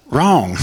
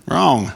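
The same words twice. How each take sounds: First: Wrong said flat and firm; stress on Wrong. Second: Laughing. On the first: Preacher correcting his own question, Wrong said firmly. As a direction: answer Wrong with a firm fall. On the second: Preacher repeating his correction, laughing. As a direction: chuckle out Wrong. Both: Shown as a demonstration.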